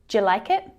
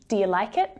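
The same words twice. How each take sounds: First: 'Do you' shrinks to a single syllable, 'ja'. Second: 'Do you' sounds like two syllables, 'do ya'. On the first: "it can also sound like ja" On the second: "it can sound like do ya"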